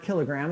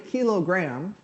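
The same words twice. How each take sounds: First: The word is run together as usual. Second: Kilo is set apart from gram.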